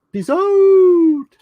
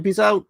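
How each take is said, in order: First: Very high, loud, long-held OUT; exaggerated sign-off. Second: Said in the usual way. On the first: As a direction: hold "out" on a high loud note.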